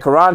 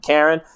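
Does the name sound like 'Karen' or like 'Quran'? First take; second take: Quran; Karen. First: The name is said like the word Quran. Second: The name is said like the English name Karen. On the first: This is the name as it is properly pronounced. "the Quran pronunciation" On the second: This is how the name would be said in America. "in America his name would be Karen"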